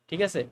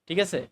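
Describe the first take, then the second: No difference in how they are said.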